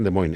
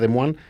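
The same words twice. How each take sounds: First: The name is said with an American pronunciation. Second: The name is said with a French pronunciation. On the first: "estos dicen" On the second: "la pronunciación a la francesa sería"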